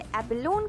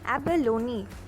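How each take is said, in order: First: The word ends on a consonant sound. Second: The word ends on a vowel sound. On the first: The speaker calls it wrong. "क्या हम इसे एबेलोन कहते हैं? जी नहीं" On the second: The speaker calls it right. "इसका सही pronunciation है एबेलोनी"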